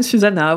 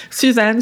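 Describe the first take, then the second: First: "Susanna" with the final a clearly sounded; "Susanna" said right, final a pronounced; corrected name. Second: "Suzanne" said as the plain French name, the mistaken take; name said French style, "Suzanne" with no final vowel; wrong name. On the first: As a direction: fix the name to "Susanna", landing it with a fall. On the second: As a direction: say "Suzanne" first, then correct yourself. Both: Shown as a demonstration. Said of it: "voilà".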